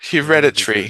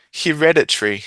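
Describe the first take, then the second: First: It is said with an Australian schwa vowel. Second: It is said with an Australian schwa vowel.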